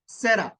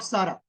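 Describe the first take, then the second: First: The name is said the English way. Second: The name is said the Hindi way. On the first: The speaker calls it right. "उसका pronounce होगा सेरा" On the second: The speaker calls it wrong. "Hindi में pronounce नहीं करना"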